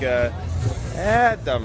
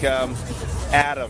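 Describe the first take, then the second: First: The name is said with a swinging, lilting melody. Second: The name is said with plain, level intonation. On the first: This is how the name is said at the festival. "But in the playa, it's more like ... a little bit of a swing" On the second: This is how the name is said in everyday life. "Like normally in the default world, it'd be like"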